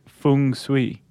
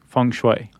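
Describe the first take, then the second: First: It is pronounced the Cantonese way. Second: It is pronounced the Mandarin way. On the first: "If we're speaking in Cantonese, we would say feng shui" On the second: "If it's Mandarin that we're speaking, Chuck, we should say feng shui"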